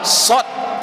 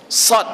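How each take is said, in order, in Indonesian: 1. Vokalnya terdengar seperti 'o'. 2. Vokalnya terdengar seperti 'a'. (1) "itu salah. Tidak ada O dalam Al-Quran" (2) "Yang ada Sa, Sad yang ada"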